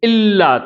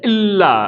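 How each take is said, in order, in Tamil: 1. இந்தச் சொல் தொண்டையில் ஒரு அடைப்புடன் தொடங்குகிறது. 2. இந்தச் சொல் தொண்டையில் ஒரு அடைப்புடன் தொடங்குகிறது.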